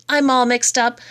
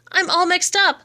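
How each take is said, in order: First: Said in the usual way. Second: Second "up" pitched high and falling, hammed-up bewilderment; mixed-up wail. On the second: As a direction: repeat it much higher, a bewildered wail. Poem refrain, said twice.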